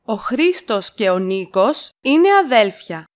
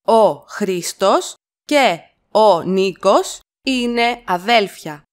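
First: Said in the usual way. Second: Slow, with αδέλφια set apart; slow it down for copying; slow chunked repeat. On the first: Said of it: "teacher models sentence". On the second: Shown as a demonstration. Teacher to learners, slow chunked model. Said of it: "teacher repeats in chunks".

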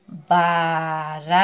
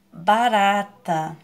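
First: Barata split as ba... ra... ta; slow, stretched beats on barata; barata, pausing between the three syllables. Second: Said in the usual way. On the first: Shown as a demonstration. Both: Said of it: "Três sílabas".

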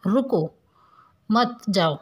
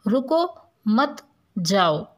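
First: रुको, a clear pause, then मत जाओ together; pause after रुको. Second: रुको मत, then a long pause before जाओ; drawn-out phrase, जाओ set apart after मत. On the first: Teacher showing the comma meaning stop, pause after रुको. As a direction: break after रुको, keep मत जाओ joined. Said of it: "इस वाक्य में रुकने के लिए कहा जा रहा है". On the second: Teacher showing the comma meaning go, pause after मत. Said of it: "इस वाक्य में जाने के लिए कहा जा रहा है". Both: Shown as a demonstration.

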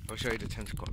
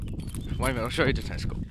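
First: Said in the usual way. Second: Louder. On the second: Shown as a demonstration. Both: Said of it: "repeats louder".

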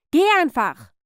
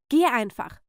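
First: Loud, high outburst; exploding, raised command; angry shout. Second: Firm, irritated order to leave; annoyed, controlled command; curt dismissal. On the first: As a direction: yell at the niece to get out. Repeats dismissal, now exploding. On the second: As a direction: send the niece away without a full shout. First dismissal of niece. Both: Acted.

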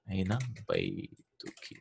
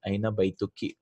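First: Slow, softer model of Aina baytuki; slow softer repeat. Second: Said in the usual way. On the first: Shown as a demonstration. Teacher repeats for the student: slow, soft model. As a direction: spell Aina baytuki out slowly and gently. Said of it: "teacher repeats slowly".

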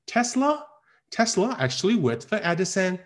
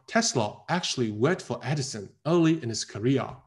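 First: "Tesla" and "Edison" pitched high and lifted; alternative, non-standard stress. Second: Said in the usual way. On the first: Shown as a demonstration. Teacher shows other possible readings, "Tesla" and "Edison" lifted high. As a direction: raise "Tesla", keep the line hanging up to "Edison". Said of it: "我当然有很多选择". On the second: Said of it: "我选择最对的那种读法".

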